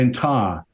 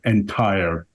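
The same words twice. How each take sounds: First: The final R sound is dropped. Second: The final R sound is clearly pronounced. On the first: This is how English people say it. "They drop the R on it" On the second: This is how an American says it. "which is an American R"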